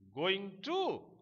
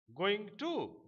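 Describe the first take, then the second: The two takes are said the same way.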